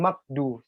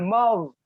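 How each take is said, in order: First: The middle consonant is a plain k. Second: The middle consonant is a throaty gh. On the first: The speaker calls it wrong. "bukan makdu" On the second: The speaker calls it right. "Yang betul itu ghairil maghdu"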